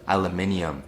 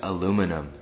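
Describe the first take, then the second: First: The word is said with five syllables. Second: The word is said with four syllables. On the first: This is the South African form. "South Africans call it aluminium" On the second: This is the American form. "Americans call this aluminum"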